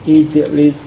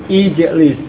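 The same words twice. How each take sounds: The two takes are said the same way.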